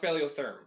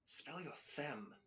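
First: An R sound comes before the final m. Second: No R sound comes before the final m. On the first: The speaker calls it wrong. "Not speleotherm" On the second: The speaker calls it right. "There's no R in it"

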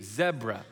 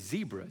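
First: The first syllable rhymes with 'Deb'. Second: The first syllable sounds like 'zee'. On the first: The speaker calls it right. "Debra, but with a Z" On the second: The speaker calls it wrong. "you say zebra"

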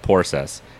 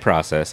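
First: It is said as 'porcess', with the r first. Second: It is said as the usual word 'process'. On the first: This is the misspelling that was actually printed. The speaker calls it wrong. "It said process" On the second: This is the word that should have been printed. The speaker calls it right. "it didn't say process"

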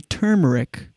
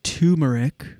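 First: The first syllable sounds like tur, with R. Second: The first syllable sounds like too, without R. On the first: "Or do you say turmeric?" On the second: "Say T O O in the comments. Like turmeric"

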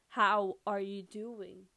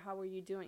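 First: It is asked in a sincere, caring way. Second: It is asked in a casual, routine way.

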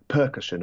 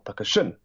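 First: The stress is on the first syllable. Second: The stress is on the last syllable. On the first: "rather than percussion" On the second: "or percussion"

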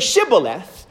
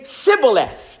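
First: The word begins with an 'sh' sound. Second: The word begins with a plain 's' sound. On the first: The speaker calls it right. "they tried to say Shibboleth" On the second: The speaker calls it wrong. "could not pronounce the letter H"

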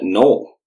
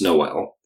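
First: The name is said with a later German pronunciation. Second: The name is said with its original French pronunciation. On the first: The family changed it to avoid trouble. "they started pronouncing it Noel" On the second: This is the family's original pronunciation. "It was originally French. It was pronounced Noel"

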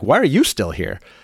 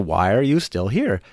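First: The question sounds sharp and accusatory. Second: The question sounds warm and genuinely curious. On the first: It suggests the person should have left already. The speaker calls it wrong. "make sure you be careful with the tone, right? Like" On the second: It shows real interest in why the person stays. The speaker calls it right. "we're glad that you're still with the company"

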